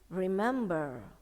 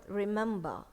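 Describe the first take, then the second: First: The final R is softly pronounced. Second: The final R is not pronounced. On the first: "But in American" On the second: "In British, here, R in here is silent"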